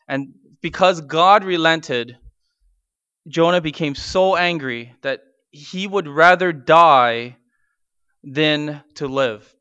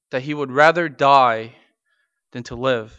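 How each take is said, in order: First: Slowed and weighty, leaning on rather; slow emphatic stress. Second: Said in the usual way. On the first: Acted. Pastor stresses Jonah's wish to die, slowly and heavily. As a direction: press down on every word.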